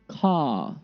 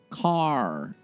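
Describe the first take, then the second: First: It ends in a plain vowel without R. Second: It ends with a heavy R sound. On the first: "letter R is silent"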